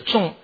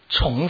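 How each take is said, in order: First: The syllable is said with a falling tone. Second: The syllable is said with a level tone. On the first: It means heavy or grave. "这个重戒的重是去声" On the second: It means again or repeated. "这是平声"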